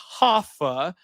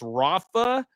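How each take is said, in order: First: The name starts with an H sound. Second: The name starts with an R sound. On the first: The name is said the Brazilian way. The speaker calls it wrong. "not Hoffa. He's Mexican. he's not. He's not Brazilian" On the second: The name is said the Mexican way. The speaker calls it right. "pronounce my R for this man's name"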